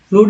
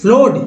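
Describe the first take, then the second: First: The vowel is a long oo sound. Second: The vowel is a long oh sound. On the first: "फ्लूड नहीं" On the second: "फ्लोड नहीं"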